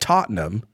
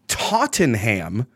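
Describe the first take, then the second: First: The word is clipped, unlike its spelling. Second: The word is sounded out fully, as spelled. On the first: This is how the locals say the name. "or as they call it, Tottenham, which is not how it's spelled at all" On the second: This is the speaker's own reading of the name. "I went Tottenham"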